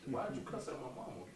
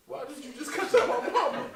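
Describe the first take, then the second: First: Said in the usual way. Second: Much higher and louder, laughing through. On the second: Real, not acted. Comedian asking the host again, laughing. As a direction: repeat the question laughing in disbelief.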